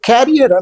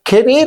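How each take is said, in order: First: It is said like 'carrier', stressed at the start. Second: It is said like 'career', stressed at the end. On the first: The speaker calls it wrong. "ఎప్పుడు క్యారియర్ అంటారు. అది వినడానికి చాలా ఎబ్బెట్టుగా అనిపిస్తుంది" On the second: The speaker calls it right. "కెరీర్ అనే మాట"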